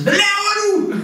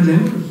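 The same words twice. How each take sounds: First: High-pitched outburst, far above normal speech; raised-voice yell. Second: Said in the usual way. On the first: Acted. Spouse yelling at the one standing beside them, raised voice. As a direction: yell it at someone standing right beside you. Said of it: "det med at hæve stemmen". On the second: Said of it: "Du kan sige til hende".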